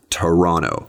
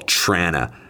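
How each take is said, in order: First: The T sounds are pronounced, giving three syllables. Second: The T sounds are dropped, giving two syllables. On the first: This is the standard way to say it. "If you want to say all the T's" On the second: This is how locals say it. "no T sounds at all"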